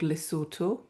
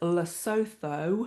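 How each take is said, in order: First: The name is not pronounced the way it's spelled. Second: The name is pronounced the way it's spelled. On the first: The speaker calls it right. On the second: The speaker calls it wrong.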